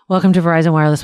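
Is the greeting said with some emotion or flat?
flat. The greeting is said flatly, without emotion. "she said it with less emotion than I just did"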